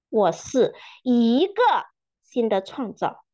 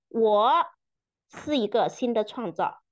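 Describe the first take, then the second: First: The stress falls on the word 一个. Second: The stress falls on the word 我. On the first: "强调每一个词" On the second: "强调每一个词"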